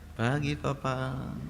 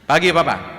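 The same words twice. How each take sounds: First: It is said softly. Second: It is said loudly.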